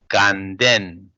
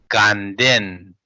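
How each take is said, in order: No difference in how they are said.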